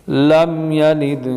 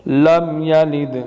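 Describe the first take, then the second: No difference in how they are said.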